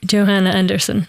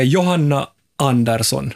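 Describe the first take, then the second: First: Name said in American English; American accent. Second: Johanna Andersson with a Nordic J and open vowels; Finland-Swedish name. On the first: Guest answering for someone from Detroit, American accent. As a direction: Johanna with an English J, American style. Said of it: "om människan är från Detroit". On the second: Host checking a name from Äänekoski, Nordic pronunciation of Johanna Andersson. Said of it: "människa som är från Äänekoski". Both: Shown as a demonstration.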